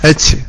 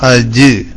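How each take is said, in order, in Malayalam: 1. അവസാന വ്യഞ്ജനം പുറത്തേക്ക് പോകുന്ന കാറ്റോടെ ഉച്ചരിക്കുന്നു. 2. അവസാന വ്യഞ്ജനം കാറ്റ് പുറത്തുപോകാതെ ഘോഷത്തോടെ ഉച്ചരിക്കുന്നു. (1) "ജീമ് കാറ്റോട് കൂടെ പറയുന്ന" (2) "അജ് എന്ന് പറഞ്ഞു നോക്കി"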